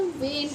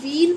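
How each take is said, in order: First: वेन softly as VAYN, one syllable; softer VAYN for वेन; correct pronunciation. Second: वीन as VEEN with long ee; rejected VEEN for वीन; wrong pronunciation. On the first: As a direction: settle on वेन with ay vowel. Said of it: "इसे हम वेन पढ़ते हैं". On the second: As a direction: say वीन, ee instead of ay. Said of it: "ना इसे हम वीन पढ़ेंगे". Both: Shown as a demonstration.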